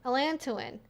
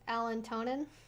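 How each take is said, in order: First: It is said without an extra n sound. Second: It is said with an extra n sound. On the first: The speaker calls it right. "I think it's um, al allantoin" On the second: The speaker calls it wrong. "which I've been saying to myself in my head is allantonin. It's not"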